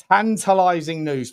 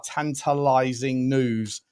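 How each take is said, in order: First: Punchy repeat. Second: Drawn-out. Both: Real, not acted.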